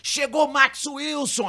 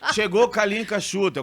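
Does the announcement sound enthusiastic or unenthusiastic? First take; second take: enthusiastic; unenthusiastic. First: The announcement sounds enthusiastic and favoring. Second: The announcement sounds unenthusiastic and cold.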